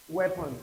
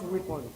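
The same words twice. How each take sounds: First: "Weapon" said WEP-un, short e as in bed; "Weapon" with a short vowel, as in bed; correct weapon. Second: "weapon" said WEE-pon, long ee; "weapon" with a long ee, the wrong way. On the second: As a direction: mispronounce "weapon" with a long ee, as in sweep. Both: Shown as a demonstration. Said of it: "Not weapon".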